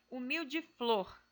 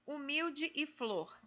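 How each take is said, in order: First: Humilde flor, the final e of humilde merged into e so it sounds like Humilde flor; joined vowels. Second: Said in the usual way. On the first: Shown as a demonstration. Teacher showing students how Humilde flor is really spoken. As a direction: say Humilde flor slowly, gliding humilde straight into flor. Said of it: "da mesma maneira como a gente fala". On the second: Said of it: "nós não pronunciamos os dois Es".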